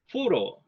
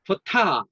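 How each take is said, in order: First: Photo with PHO stressed and TO reduced; first-pattern demo; strong PHO, weak TO. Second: Photo with TO stressed and higher; second-pattern demo; strong second syllable. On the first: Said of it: "제 이음절 약세인". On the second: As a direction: push up on TO in photo. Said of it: "강한 음절로 바뀌었습니다". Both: Shown as a demonstration.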